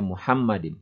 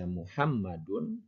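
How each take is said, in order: First: The word ends with an 'in' sound. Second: The word ends with an 'un' sound. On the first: It stands in apposition to the preceding noun. "bisa dibaca dengan jar atau jer, ya. Dibaca Muhammadin" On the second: It is the predicate of an omitted subject. "Apabila dibaca Muhammadun, dibaca eh, rofa"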